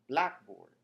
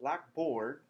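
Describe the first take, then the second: First: The stress falls on black. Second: The stress falls on board. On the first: It is a learning management system. "a learning system management"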